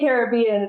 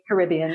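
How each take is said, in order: First: It is pronounced the local island way. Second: It is pronounced the American way. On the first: This is how people living there say it. "the locals here say, they say Caribbean" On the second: This is how people from America say it. "I think Americans say Caribbean"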